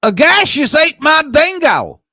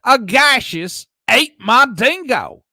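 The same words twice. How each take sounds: First: Loud, high theatrical proclamation; dramatic shout. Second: Loud dramatic read. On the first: Streamer shouting a viewer's chat message aloud. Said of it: "I gotta read this right". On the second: Rereads chat after "what happened. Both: Pretend.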